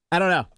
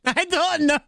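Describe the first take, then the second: First: Said in the usual way. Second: Higher, hammed-up Irish accent; mock Irish. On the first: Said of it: "accent you use to say that". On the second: Streamer playing along with the Irish slip, mock Irish. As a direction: push the mock Irish brogue up high. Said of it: "Why are you Irish?".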